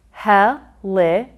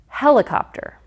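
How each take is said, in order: First: Helicopter broken into he, li, cop, ter; syllable counting. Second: Said in the usual way. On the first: Shown as a demonstration. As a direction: pause after each syllable of Helicopter. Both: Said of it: "count the syllables".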